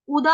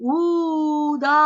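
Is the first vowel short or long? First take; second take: short; long. First: The first vowel u is short. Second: The first vowel u is long. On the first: The speaker calls it right. "ऊ छोटा है" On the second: The speaker calls it wrong. "गलती से यहां पर हो जाता है उदा, मतलब कि ऊ भी बड़ा हो जाता है"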